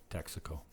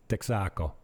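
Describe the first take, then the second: First: Said in the usual way. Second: TEXACO as tek-SA-co, stress on SA; local pronunciation. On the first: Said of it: "how the locals say Texaco". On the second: Shown as a demonstration. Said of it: "they put the accent on the end".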